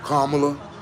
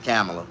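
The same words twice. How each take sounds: First: The name is said with a mangled pronunciation. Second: The name is said with its intended pronunciation. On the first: The speaker calls it wrong. "they keep Kamala" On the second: The speaker calls it right. "Her name is Kamala"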